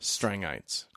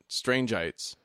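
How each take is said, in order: First: The first part sounds like strang, without the e. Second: The first part sounds like the word strange. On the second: "I still want to pronounce it Strangeites"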